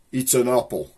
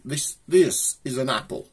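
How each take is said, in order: First: Black Country "apple". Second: Lightly posh accent on "apple". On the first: Showing viewers how locals say it, in a broad Black Country accent. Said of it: "if you am from round here". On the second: Showing viewers how posh folk say it, in a light posh accent. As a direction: say "apple" with a clipped posh short a, like "ah-pple". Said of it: "to a posh person". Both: Shown as a demonstration.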